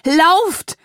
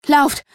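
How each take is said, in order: First: High, drawn-out desperate yell; bellowed command. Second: High, loud, short burst of warning; gasped urgent cry. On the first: Mother screaming at her child to flee, bellowed command. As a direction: yell it long and loud, pitch climbing. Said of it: "brüllte Mama". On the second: Mother urging her child to flee, gasped cry. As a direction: pant out a short, loud command. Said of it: "keuchte meine Mutter". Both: A narrator's reading.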